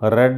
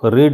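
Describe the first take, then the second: First: The vowel is short, like 'red'. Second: The vowel is long, like 'reed'. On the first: The action happened in the past. "రెడ్ అంటే verb ఫాస్ట్" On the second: The action happens in the present. "రీడ్ అనేటటువంటిది verb present"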